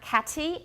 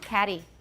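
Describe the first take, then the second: First: The middle consonant is a full T. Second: The middle consonant is a quick tap. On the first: "the T in catty is not catty" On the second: "it's a tap, right? Short D that cannot be lengthened"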